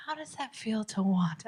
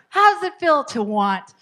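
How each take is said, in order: First: Softer, trying to sound caring; attempted empathy. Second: Louder, higher, failed empathy; unempathetic attempt. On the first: Coach retries the line for parents, softly attempting empathy. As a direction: soften it into a tentative kindness. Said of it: "I don't know if I could say that empathetically". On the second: Coach fails to say the line empathetically, loud and pointed. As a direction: say it pointedly, without sympathy. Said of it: "I don't know if I could say that empathetic". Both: Shown as a demonstration.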